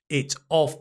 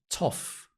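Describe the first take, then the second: First: The two words are said separately. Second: The t joins the next vowel as one syllable.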